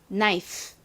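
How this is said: The final sound is short and weak. The speaker calls it right. "knife 이렇게 끝을 약하게 발음합니다"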